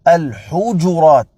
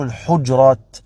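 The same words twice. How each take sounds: First: The consonant after h has a short u vowel. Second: The consonant after h has no vowel after it. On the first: The speaker calls it right. "الجيم مضمومة" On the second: The speaker calls it wrong. "لا تقل الحجرات"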